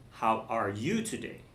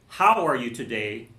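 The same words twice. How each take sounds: First: You stressed, question rising at the end. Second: How punched, the rest of the question light; stress on how. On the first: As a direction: lean on you and lift at the end. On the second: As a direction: hit the word How, let the rest fall away. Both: Shown as a demonstration. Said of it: "so they're all different".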